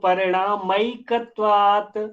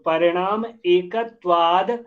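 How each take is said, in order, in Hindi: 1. दोनों शब्द मिलकर एक हो जाते हैं। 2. दोनों शब्द अलग-अलग रखे जाते हैं।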